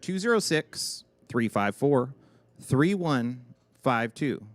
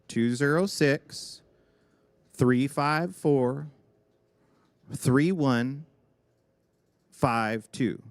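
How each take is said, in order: First: The number is read at normal speed. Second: The number is read slowly.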